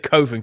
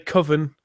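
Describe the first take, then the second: First: The first syllable sounds like the word cove. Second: The first syllable does not sound like cove. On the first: "it sounds more like a cove" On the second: "you may say Coven if you wish"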